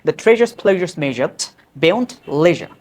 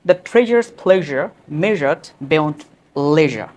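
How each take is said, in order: First: It is said quickly, with added speed. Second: It is said at a normal, unhurried pace.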